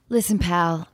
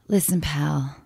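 First: It is said in a plain, non-lusty way. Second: It is said in a lusty, seductive way.

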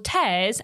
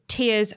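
First: The vowel sounds like the one in bears. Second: The vowel sounds like the one in fears. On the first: It refers to ripping. "Tears as in ripping" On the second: It refers to crying. "Tears as in crying"

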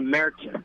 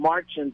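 First: The first vowel sounds like an English long A. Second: The first vowel is an open 'ah' sound. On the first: The umlaut is pronounced. The speaker calls it right. "to Märzen. It's like an English long A" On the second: The umlaut is ignored. The speaker calls it wrong. "changes it from Marzen"

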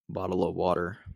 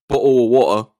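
First: It is said in an American accent. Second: It is said in a British accent.

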